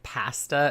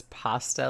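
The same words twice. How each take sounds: First: "pasta" with short flat A; "pasta" with the A of cat; Canadian pronunciation. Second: "pasta" with open AH; "pasta" with the A of father; pronunciation shown. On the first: Retold or imitated. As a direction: say "pasta" as PASS-tuh. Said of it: "This guy is also Canadian". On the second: Shown as a demonstration. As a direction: say "pasta" as PAH-stuh. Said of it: "like pasta".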